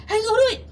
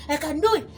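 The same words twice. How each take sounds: First: Loud, pumped-up I can do it; louder, higher battle cry of confidence; shouted self-belief. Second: Said in the usual way. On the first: Pretend.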